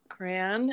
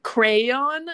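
First: Crayon in one syllable, "cran". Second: Crayon in two syllables, louder and higher, questioning. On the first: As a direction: repeat crayon as a short "cran". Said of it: "What did you just say?". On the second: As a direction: query it as "CRAY-awn?". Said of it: "And he goes". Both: Retold or imitated.

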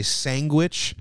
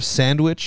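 First: Sandwich said as "sang-gwich", drawn out; mispronounced sandwich. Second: Said in the usual way. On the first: Retold or imitated. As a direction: say sandwich with a hard g, "sangwich". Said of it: "would say sandwich". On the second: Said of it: "instead of sandwich".

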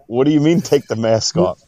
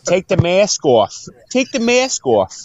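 First: Said in the usual way. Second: Put-on high, drawn-out Boston accent; hammed-up Boston order, climbing higher on the repeat. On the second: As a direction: imitate a Boston bartender, slow and high-pitched. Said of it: "my Boston accent will work".

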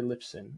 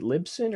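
First: Lipson with a p sound; second guess, Lipson with a p; unsure pronunciation. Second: Libsyn with a b sound; first guess, Libsyn with a b; unsure pronunciation. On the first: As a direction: say Lipson with a crisp p before the s. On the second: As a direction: say Libsyn with a voiced b before the s. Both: Shown as a demonstration. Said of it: "don't even know how to pronounce".

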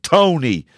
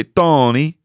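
First: Tony in a Dublin accent. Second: Tony said with a Swedish lilt; Swedish accent. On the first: Shown as a demonstration. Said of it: "with my Dublin accent as well". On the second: Retold or imitated. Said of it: "she would say".

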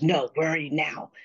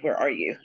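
First: "now" stressed as the point of the question; insistent question. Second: Said in the usual way. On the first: Retold or imitated. Caller cuts past her answer to ask where exactly, insistent stress on "now". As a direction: press for an answer, leaning on "now".

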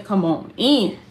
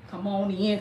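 First: Louder, calling the viewers in. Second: Said in the usual way. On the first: Real, not acted. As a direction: call them in from across the room.

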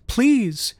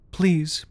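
First: The second please higher and more urgent; girl begs her parents again, higher and more urgent; begging child. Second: Put-on pleading child. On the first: Urgent high begging. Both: A narrator's reading. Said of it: "Madeline begged".

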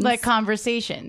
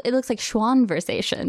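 First: "conversations" said plainly as the model; plain "conversations" for comparison; model word. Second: "schwanversations" said with an n after schwa; reading aloud. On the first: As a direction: give the ordinary "conversations". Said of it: "so it would be like conversations". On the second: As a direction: blend "schwanversations" like conversations. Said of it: "How would you pronounce this word?". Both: Shown as a demonstration.

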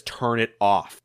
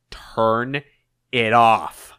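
First: Slow, low, restrained order; controlled anger. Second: TURN, pause, then a firmer IT OFF; mounting anger. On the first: Eggman orders Orbot to stop the video, controlled anger. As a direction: order it through simmering anger. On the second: Eggman cuts off Orbot's protest, anger mounting. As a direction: split the order with a seething pause. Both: Acted. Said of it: "ever increasing in his anger".

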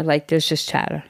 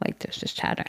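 First: Said in the usual way. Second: Hushed, voiceless repeat of the line; whisper. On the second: Shown as a demonstration. Mom whispering to show the murmuring stands. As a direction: drop to a whisper to mimic the crowd chatter.

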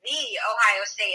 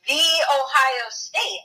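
First: The in the Ohio State slightly leaned on, slow; mild mock of The Ohio State; stress on the. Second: Slow, drawn out The Ohio State with THE leaned on; mocking The Ohio State, The stretched; stress on the. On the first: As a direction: stretch the Ohio State a little. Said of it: "nobody talks like that in real life". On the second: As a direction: lean hard on The, slowly. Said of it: "Why the emphasis on the?".

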